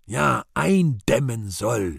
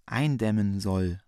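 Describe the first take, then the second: First: Put-on gurgling old god. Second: Weak, sickly voice, slowed; faint consumptive rasp. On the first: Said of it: "Gottvater kollernd". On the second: Acted. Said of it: "mit schwindsüchtiger Stimme".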